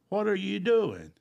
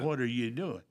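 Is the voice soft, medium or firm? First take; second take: medium; soft. First: It is said a little more strongly. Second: It is said in a quiet, small voice.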